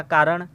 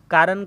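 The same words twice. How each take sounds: First: "कारण" with final retroflex ṇ; correct retroflex n. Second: "कारण" with a final dental n; wrong n sound. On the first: Teacher recaps the right form, "कारण" with retroflex ṇ. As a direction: curl the tongue for the end of "कारण". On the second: Teacher recaps the wrong form, "कारण" with plain n. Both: Shown as a demonstration. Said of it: "समझा देते हैं शुद्ध रूप".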